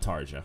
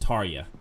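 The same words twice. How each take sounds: First: The middle consonant sounds like a J. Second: The middle consonant sounds like a Y. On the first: The speaker calls it wrong. "not Tarja" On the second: The speaker calls it right. "So it's Tarja, ... J sounds like a Y"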